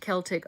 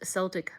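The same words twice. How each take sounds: First: The word begins with a hard K sound. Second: The word begins with a soft S sound. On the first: It refers to the ancient people. "when talking about the people is pronounced Celtic. Oh, with a K sound" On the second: It refers to the Boston sports team. "with an S sound is Celtic for the Boston sports team"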